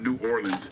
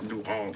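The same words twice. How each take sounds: First: The city name is said the tourist way. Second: The city name is said the local way. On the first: The speaker is an outsider to the city. The speaker calls it wrong. "Not New Orleans" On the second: The speaker is a local. The speaker calls it right. "It's New Orleans"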